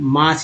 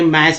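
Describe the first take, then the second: First: The vowel is a long 'aa' sound. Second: The vowel is an open 'ae' sound. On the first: The speaker calls it right. "मास ही पढ़ते हैं" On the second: The speaker calls it wrong. "मैस भी नहीं पढ़ेंगे"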